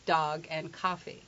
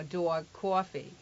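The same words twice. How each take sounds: First: "Dog" and "coffee" with open ah; standard American vowels. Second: Slow New York "dawg, cawfee"; New York accent. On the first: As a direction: say dahg and cahfee, slowly. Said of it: "the standard accent is". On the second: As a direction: stretch the New York vowels, doo-awg, kwaw-fee. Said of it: "he's from New York". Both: Retold or imitated.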